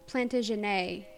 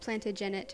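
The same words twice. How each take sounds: First: The final syllable ends in an 'ay' sound. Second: The final syllable ends in an 'et' sound. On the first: The speaker calls it right. "where you pronounce the ET as an A" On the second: The speaker calls it wrong. "you said Plantagenet or something like that"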